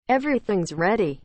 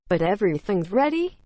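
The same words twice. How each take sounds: First: Said in the usual way. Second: READY rising into a question; questioning echo. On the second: A narrator's reading. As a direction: check back with a lift at the end on "ready". Wife echoes it as a question.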